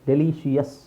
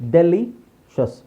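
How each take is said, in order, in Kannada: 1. ಕೊನೆಯ ಭಾಗದಲ್ಲಿ ಹೆಚ್ಚುವರಿ 'shee-us' ಉಚ್ಚಾರಾಂಶ ಇದೆ. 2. ಕೊನೆಯ ಭಾಗ ಒಂದೇ 'shus' ಉಚ್ಚಾರಾಂಶ.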